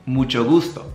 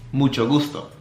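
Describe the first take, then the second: No difference in how they are said.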